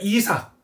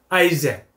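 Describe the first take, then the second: First: The name is said with a Korean pronunciation. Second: The name is said with an English pronunciation. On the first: "우리가 이삭이라 그러면" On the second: "이삭은 뭐라고 나왔죠? 아이잭"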